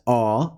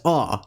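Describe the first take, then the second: First: "aw" held longer, as in English ought; long aw vowel. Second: "aw" said short, as in English not; short aw vowel. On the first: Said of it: "as in the English ought". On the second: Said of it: "as in the English not". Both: Shown as a demonstration.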